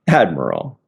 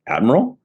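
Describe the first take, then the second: First: It falls at the end like a statement. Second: It rises at the end like a question.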